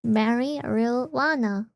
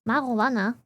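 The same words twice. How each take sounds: First: "Marijuana" drawn out slowly, "mary-you-WAH-na"; own pronunciation. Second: "Marijuana" said as "mah-ro-wah-na"; English pronunciation. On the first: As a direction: sound out "Marijuana" slowly, syllable by syllable. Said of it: "That is exactly how I'm saying it". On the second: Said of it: "English pronounces it more like marijuana". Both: Shown as a demonstration.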